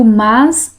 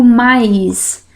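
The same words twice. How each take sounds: First: Mas said with a pure a straight into s; mas without I. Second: Mais drawn out as ma-is; wrong-way mas, turned into mais with an i glide; mas with added I. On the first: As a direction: say mas as one vowel, no i glide. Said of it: "Eu digo mas". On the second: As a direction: say mais with a clear i before the s. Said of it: "eu não digo mais". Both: Shown as a demonstration.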